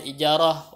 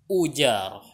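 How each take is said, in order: First: The word begins with an i vowel. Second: The word begins with a u vowel. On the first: This is the well-known reading. "yang populernya dibacanya ijarah" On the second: This is a less common reported reading. "ada yang mengatakan bisa juga dibaca ujarah"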